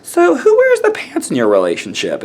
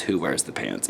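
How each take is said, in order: First: Higher-pitched imitation of a clueless asker; mock stupid question. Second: Said in the usual way. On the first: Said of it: "stupid bigoted comments". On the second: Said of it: "one of the most insulting questions".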